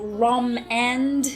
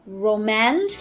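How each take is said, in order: First: It is said as two parts, 'Rom' and 'and'. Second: It is said to sound like 'romance'.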